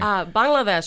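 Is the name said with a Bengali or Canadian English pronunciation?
Bengali. It has a native Bengali-style pronunciation. The speaker calls it right.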